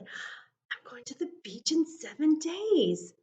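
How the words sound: It is said in a happy tone.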